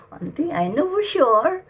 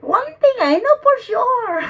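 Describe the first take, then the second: First: Said in the usual way. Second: Much higher and louder, proclaimed; loud declaration. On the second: Real, not acted. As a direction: announce it with certainty. Declaring to the spirit.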